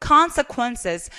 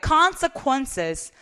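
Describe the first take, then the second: Both takes have the same delivery.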